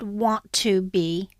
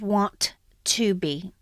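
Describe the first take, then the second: First: The two t sounds merge into one. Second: The two t sounds are said separately.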